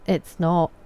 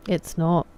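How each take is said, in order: Both takes have the same delivery.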